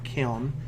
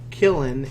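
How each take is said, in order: First: The word sounds like 'kiln'. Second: The word sounds like 'killen'. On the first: The speaker calls it right. "instead of Kiln. It's Kiln Fiend" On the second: The speaker calls it wrong. "I'm pronouncing it kill Killen instead of Kiln"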